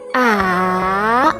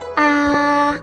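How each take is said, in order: First: The pitch starts low, dips, then rises. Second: The pitch stays high and level. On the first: "your pitch starts lower, then falls in pitch and then rises again" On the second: "The first tone is high and at the same level"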